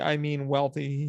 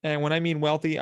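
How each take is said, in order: First: Wealthy stretched out slowly and weighed; slow emphatic repeat. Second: Said in the usual way. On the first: Shown as a demonstration. Repeating the word to stress how rich the tourists are, slowed and emphatic. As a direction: lean hard on wealthy, slowing right down.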